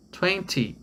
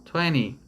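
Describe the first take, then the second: First: "Twenty" with a clear t in the middle; British twenty. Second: "twenty" with the t dropped, like tweny; American twenty. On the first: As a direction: say "Twenty" pronouncing the t fully. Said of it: "Ou, no inglês americano". ("Twenty" com o t bem pronunciado) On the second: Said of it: "no inglês americano". ("twenty" no inglês americano, sem o t, tweny) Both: Shown as a demonstration.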